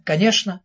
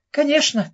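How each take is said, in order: First: Said in the usual way. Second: «Конечно» pitched much higher, falling; first «Конечно» jumps high then drops; eager agreement. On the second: A narrator's reading. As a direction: agree at once, keen. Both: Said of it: "сразу согласился Джиги".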